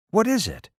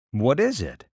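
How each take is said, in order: First: Put-on a child's worried question, pitched up; higher anxious boy. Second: Said in the usual way. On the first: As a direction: ask again, higher and more anxious. Quentin asks again, anxious.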